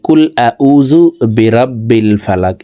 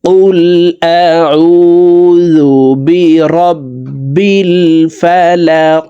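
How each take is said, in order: First: The words are articulated carelessly, with imprecise Arabic sounds. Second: The words are articulated carefully, with precise Arabic sounds. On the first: The speaker calls it wrong. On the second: The speaker calls it right.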